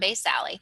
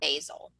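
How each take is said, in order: First: The word ends with an extra final vowel sound. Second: The word ends without a final vowel sound. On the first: "I pronounce it basale, so I can remember to put the E at the end" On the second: "some people call it stratum basal"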